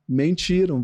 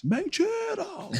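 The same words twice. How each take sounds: First: Said in the usual way. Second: "Mentiram!" stretched out slow, pitched far higher; viral preaching intonation. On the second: Shown as a demonstration. Preacher recreates his viral line for the host, "Mentiram!" slow and very high. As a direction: draw out "Mentiram!" slowly in a soaring high voice. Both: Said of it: "Aí a entonação de voz".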